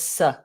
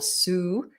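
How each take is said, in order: First: The syllable has a short reduced schwa vowel. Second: The syllable has a full unreduced vowel. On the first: The speaker calls it right. "it's just s" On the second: The speaker calls it wrong. "or su"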